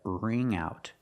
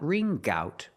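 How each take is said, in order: First: The NG sound glides smoothly into the second word. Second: A hard G sound starts the second word. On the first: The speaker calls it right. "Link the sounds mm with the ow" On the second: The speaker calls it wrong. "Not ring gout"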